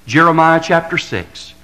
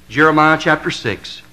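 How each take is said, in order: Both takes have the same delivery.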